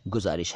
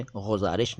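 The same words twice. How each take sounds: First: गुजारिश with a plain hard g; correct hard G. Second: गुजारिश begun with throaty gh; wrong nukta sound. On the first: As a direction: say गुजारिश as guzarish, G stopped cleanly. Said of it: "गुजारिश है". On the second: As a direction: say गुजारिश as ghuzarish, a fricative first sound. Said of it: "ये गुजारिश नहीं है". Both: Shown as a demonstration.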